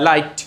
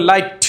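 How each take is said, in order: First: লাইট closing on a short, gentle T; unforced final T in লাইট; smooth final T. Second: লাইট ending in a hard puff of T; exploded final T in লাইট; over-released final T. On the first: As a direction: end লাইট without a puff. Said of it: "এভাবে". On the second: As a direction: force the last T of লাইট out as ঠ. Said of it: "এখন যদি আপনি লাইট". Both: Shown as a demonstration.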